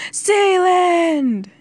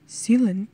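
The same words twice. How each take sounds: First: High, loud drawn-out cry of the name; long anguished shout; desperate yell. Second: Hesitant questioning call of the name; unsure, restrained call; tentative call. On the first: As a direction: yell it out, falling away at the end. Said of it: "he yelled". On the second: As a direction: say the name carefully, as if checking on someone. England finds his brother in hospital. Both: A narrator's reading.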